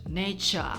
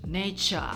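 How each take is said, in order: First: It is said in a British accent. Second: The same.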